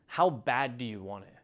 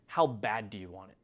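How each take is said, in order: Both takes have the same delivery.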